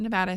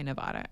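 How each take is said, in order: First: "Nevada" with the short a of "cat"; Nevada, local way. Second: "Nevada" with the ah of "father"; open-ah middle syllable in "Nevada"; Nevada, outsider way. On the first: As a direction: say "Nevada" as nuh-VAD-uh. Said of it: "People from Nevada say Nevada". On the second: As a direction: say "Nevada" as nuh-VAH-duh. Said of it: "Other people say Nevada". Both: Shown as a demonstration.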